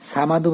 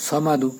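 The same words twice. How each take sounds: First: সামাদু with an open a, the wrong way; সামাদু with a flat open a; wrong samadu. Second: সমাদু with a short rounded first vowel; সমাদু with a rounded o sound; correct samadu. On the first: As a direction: mispronounce it as সামাদু. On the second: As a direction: say সমাদু, not সামাদু. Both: Shown as a demonstration. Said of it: "সামাদু বলা যাবে না".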